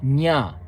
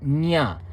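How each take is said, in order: No difference in how they are said.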